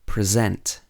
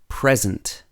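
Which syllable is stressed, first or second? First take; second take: second; first. First: The stress is on the second syllable. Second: The stress is on the first syllable. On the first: It is used as a verb. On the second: It is used as a noun.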